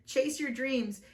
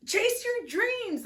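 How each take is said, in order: First: Said in the usual way. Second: Very high and slow, drawn-out proclamation; proclaimed title. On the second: Shown as a demonstration. Tarot reader proclaims the card title dramatically. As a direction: sing out Chase your dreams like an announcement.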